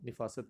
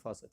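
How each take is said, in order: First: The first syllable has an i vowel. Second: The first syllable has an a vowel. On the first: The speaker calls it wrong. "ये निफासत नहीं होता" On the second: The speaker calls it right. "नफासत होता है"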